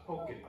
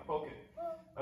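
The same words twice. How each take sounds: First: Said in the usual way. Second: "Poke it." said much higher, soft, with a rising end on "it"; playful high. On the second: Shown as a demonstration. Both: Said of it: "Poke the clouds".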